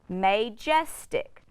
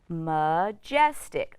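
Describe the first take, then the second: First: The first vowel is a long 'ay' sound. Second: The first vowel is a weak 'uh' sound. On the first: The speaker calls it wrong. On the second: The speaker calls it right. "is going to say uh. It's an unstressed syllable"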